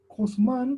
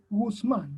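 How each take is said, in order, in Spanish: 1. Empieza con una consonante hecha muy atrás. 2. Empieza con un sonido g. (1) "Como se pronuncia tan atrás" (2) "va cambiando a ser una G"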